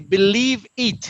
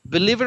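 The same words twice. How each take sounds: First: The two words are cut apart. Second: The two words are joined smoothly together. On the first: The speaker calls it wrong. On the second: The speaker calls it right.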